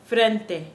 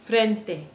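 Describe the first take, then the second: The two takes are said the same way.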